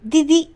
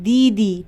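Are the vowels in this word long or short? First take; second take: short; long. First: The vowels are clipped short. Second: The vowels are drawn out long. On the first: The speaker calls it wrong. "ऐसे नहीं बोल रहे" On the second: The speaker calls it right. "इसमें थोड़ा खींच के बोल रहे हैं"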